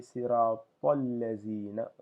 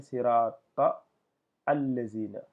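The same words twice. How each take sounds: First: Siratal lazina run together as one phrase; the right way, linked; correct linked reading. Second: Sirata cut off, then al lazina after a pause; stopping mid-phrase, the learner's mistake; wrong split reading. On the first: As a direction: join siratal lazina without stopping. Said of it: "je dois dire". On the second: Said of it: "Je peux pas dire". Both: Shown as a demonstration.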